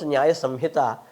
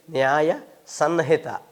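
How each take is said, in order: First: Samhita said with an m before the h. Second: Sanhita said slowly with an n before the h; slowly, tongue up for the n of Sanhita. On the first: Teacher showing how people pronounce the title, m in Samhita. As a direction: close the lips on the m of Samhita. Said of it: "They pronounce Nyaya Samhita". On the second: Teacher showing how they write the title, slow n in Sanhita. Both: Shown as a demonstration.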